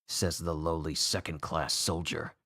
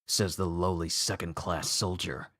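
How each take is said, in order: No difference in how they are said.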